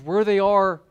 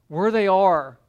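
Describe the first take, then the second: First: WHERE they are, with where stressed and falling. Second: Where THEY are, with they stressed and falling. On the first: Preacher setting the disciples' mindset, stress on where. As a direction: lean on the word where. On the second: Preacher setting the disciples' mindset, stress on they. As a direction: lean on the word they. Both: Shown as a demonstration.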